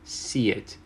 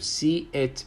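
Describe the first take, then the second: First: A y sound links the two words together. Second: The two words are said separately, without linking.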